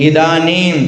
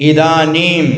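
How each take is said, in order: No difference in how they are said.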